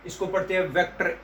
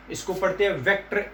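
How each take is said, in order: Both takes have the same delivery.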